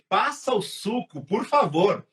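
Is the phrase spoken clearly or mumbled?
clearly. The phrase is articulated clearly with an open mouth.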